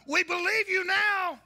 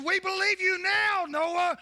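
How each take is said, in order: First: Higher, louder, slowed plea; slower pleading. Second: Higher, louder desperate plea; pleading townsfolk. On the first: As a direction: drag it out, begging. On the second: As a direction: beg Noah to open up. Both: Retold or imitated. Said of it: "and they said".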